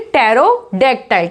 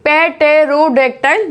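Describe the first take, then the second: First: Pterodactyl slowly as tero-dactyl; silent P. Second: Pterodactyl slowly as pe-tero-dactyl; wrong, P sounded. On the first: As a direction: start Pterodactyl on a t, drawn out. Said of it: "इसमें P silent है". (Pterodactyl में P silent, धीरे-धीरे) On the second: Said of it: "नहीं बोला जाएगा". (pterodactyl में P बोलकर, धीरे-धीरे) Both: Shown as a demonstration.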